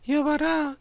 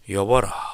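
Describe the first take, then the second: First: It is said in a thin, high voice. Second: It is said in a deep, booming voice.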